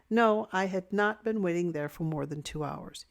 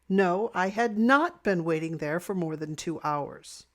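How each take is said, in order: First: It is said calmly, without strong emotion. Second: It is said angrily, stressing "not".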